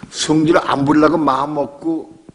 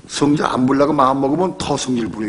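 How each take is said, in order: First: 성질 안 부리려고 said slowly and a bit louder, each word leaned on; slow, weighted phrase. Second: Said in the usual way. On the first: Shown as a demonstration. Pastor presses the congregation: slow, weighted 성질 안 부리려고. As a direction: drag out 성질 안 부리려고 마음 먹고 to drive it home. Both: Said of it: "여러분".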